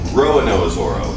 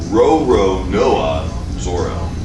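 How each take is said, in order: First: The first name is said with a syllable dropped. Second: The first name is said with every syllable. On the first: The speaker calls it wrong. "lots of people say Roanoa Zoro, but that's not correct" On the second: The speaker calls it right. "It's Roronoa Zoro"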